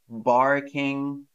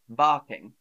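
First: The r after the vowel is pronounced. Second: The r after the vowel is silent. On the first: The speaker calls it wrong. "we don't say barking in British English" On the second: The speaker calls it right. "we say barking. You don't say the R"

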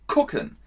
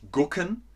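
First: The word begins with a K-like sound. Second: The word begins with a voiced G sound. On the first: The speaker calls it right. "man sagt gucken" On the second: The speaker calls it wrong. "da steht G, aber man sagt nicht gucken"

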